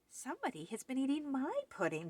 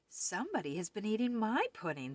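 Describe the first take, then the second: First: It is said in a wee little voice. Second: It is said in a middle-sized voice.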